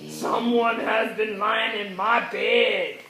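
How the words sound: It is said in a deep, growling voice.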